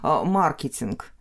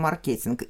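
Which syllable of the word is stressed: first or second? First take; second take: first; second. First: The stress is on the first syllable. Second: The stress is on the second syllable.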